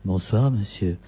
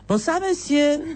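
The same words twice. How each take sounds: First: The voice is low and throaty. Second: The voice is lighter and higher. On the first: The speaker calls it right. "plus bas. ... Très bien, tu le tiens bien" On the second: The speaker calls it wrong. "Non, c'est pas ça"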